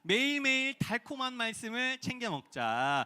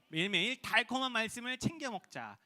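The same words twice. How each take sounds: First: It is read in a sweet, sugary tone. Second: It is read in a plain, ordinary tone.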